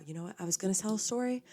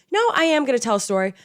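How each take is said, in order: First: Quick, softer, half to herself; hesitant aside. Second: "am" punched, louder and quick; decide firmly, hit "am"; stress on am. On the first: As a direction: trail off as if backing out. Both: Real, not acted.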